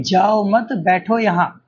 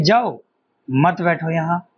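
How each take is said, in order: First: "जाओ मत" as one phrase, then "बैठो यहाँ"; मत के बाद विराम. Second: "जाओ", pause, then "मत बैठो यहाँ" together; जाओ के बाद विराम. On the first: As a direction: break after मत, before बैठो. ("जाओ मत" एक साथ, फिर "बैठो यहाँ") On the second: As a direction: break before मत, joining it to बैठो. ("जाओ" पर रुकें, फिर "मत बैठो यहाँ" साथ में) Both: Shown as a demonstration. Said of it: "एक कोमा का अंतर है".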